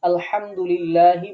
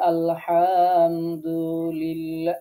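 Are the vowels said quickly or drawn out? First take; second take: quickly; drawn out. First: The vowels are short and quick. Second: The vowels are stretched out and slow. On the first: The speaker calls it right. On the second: The speaker calls it wrong.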